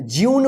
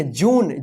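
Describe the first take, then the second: First: ज्यून with a "y" glide, "jyoon"; wrong pronunciation. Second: जून said as a long plain "joon", with no y glide; correct pronunciation. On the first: Teacher warns students off the wrong form, ज्यून said "jyoon". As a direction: show the mistake: ज्यून, "jyoon". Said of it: "मत पढ़िएगा". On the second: Teacher models the right English word, जून said "joon". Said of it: "ज्यून मत पढ़िएगा". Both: Shown as a demonstration.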